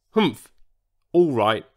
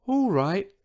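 First: Short, grudging grunt. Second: High, small, hushed-style voice; meek, high little reply; tiny whisper. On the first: Old Triceratops reluctantly lets newcomer stay, grunting. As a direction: give in with a humph. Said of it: "grunted George". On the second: Huge dinosaur agrees to tiptoe, in a tiny mock whisper. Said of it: "whispered the dinosaur". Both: A narrator's reading.

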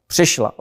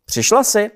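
First: Short gloomy answer with falling tune. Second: PŘIŠLA JSI pitched high as a question. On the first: Ajše answers the youth at the gate, gloomy. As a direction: answer sullenly, letting it drop. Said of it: "odpověděla zachmuřeně Ajše". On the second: Youth greets Ajše at the gate, PŘIŠLA JSI as a high question. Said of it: "zeptal se jinoch". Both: A narrator's reading.

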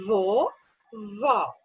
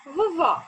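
First: "Vovó" drawn out slowly, both syllables clear; "Vovó" said long and slow for counting syllables; stretched for syllables. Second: Said in the usual way. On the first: Shown as a demonstration. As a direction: stretch "Vovó" so the children hear each syllable.

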